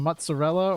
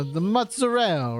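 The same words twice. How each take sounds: First: Said in the usual way. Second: MOZZARELLA as "mutza-rell", final vowel dropped; mock New York Italian mozzarella, stretched "rell"; Italian-American accent. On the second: Shown as a demonstration. Pizza reviewer joking in an Italian-American accent. Italianized retake after gabagool joke.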